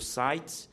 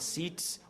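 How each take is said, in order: First: The name is pronounced with English sounds. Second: The name is pronounced with Portuguese sounds.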